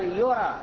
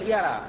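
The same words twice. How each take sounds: First: The first syllable has a u vowel. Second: The first syllable has an a vowel. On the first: It is considered false by others. The speaker calls it right. "بل يرى" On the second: He himself judges it to be false. The speaker calls it wrong. "لا تقول يرى"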